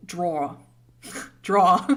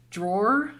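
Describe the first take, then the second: First: "draw" for drawer, no final R; "draw" ending on an open vowel; Boston pronunciation. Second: "drawer" with the final R fully sounded; careful R. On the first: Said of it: "certain words I can't say". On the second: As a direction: say "drawer" deliberately, ending on a hard R. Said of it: "it's hard for me to say". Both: Shown as a demonstration.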